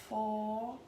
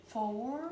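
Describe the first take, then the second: The two takes are said the same way.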